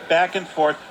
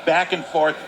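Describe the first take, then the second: No difference in how they are said.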